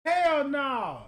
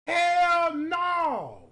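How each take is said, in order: First: Emphatic. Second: HELL shouted higher and louder. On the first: Repeats louder. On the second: Comic reacts to a photo, shouting Hell no. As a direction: yell Hell no harder. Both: Real, not acted.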